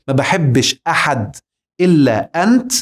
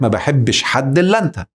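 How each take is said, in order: First: The glottal stops in ahad and anta are pronounced. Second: The glottal stops in ahad and anta are dropped. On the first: "الهمزة في أحد اتشالت، والهمزة في أنت اتشالت" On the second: "بقت ما بحبش حد إلا أنت"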